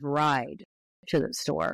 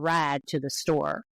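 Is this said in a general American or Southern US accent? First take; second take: general; Southern. First: It is said with a general American vowel. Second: It is said with a Southern US vowel. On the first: "instead of" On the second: "Can you give me a"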